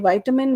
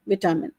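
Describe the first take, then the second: First: It is said in an American accent. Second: It is said in a British accent. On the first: "in American English, it's vitamin. They will say vitamin" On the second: "while British English, they will say vitamin"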